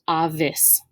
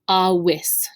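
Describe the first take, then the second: First: The middle consonant is a V sound. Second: The middle consonant is a W sound. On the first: The speaker calls it wrong. "not avis" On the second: The speaker calls it right. "this word is actually pronounced awis"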